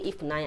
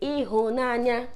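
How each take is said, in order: First: The middle consonant is an f sound. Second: The middle consonant is an h sound. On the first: This is how speakers from Anambra say it. "I say ifunanya. I'm Anambra" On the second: This is how some other speakers say it. "Some say ihunanya"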